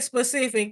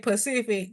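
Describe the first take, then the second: First: The word begins with an s sound. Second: The word begins with a p sound. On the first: "They don't say specific" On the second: "they say Pacific"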